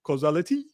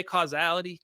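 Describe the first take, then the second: First: Playful put-on French accent. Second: Said in the usual way. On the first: Shown as a demonstration. Answering a chat request, attempted French accent. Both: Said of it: "can you say it with a French accent".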